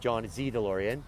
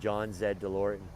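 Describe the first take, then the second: First: Z is said the American way, as zee. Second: Z is said the Canadian way, as zed.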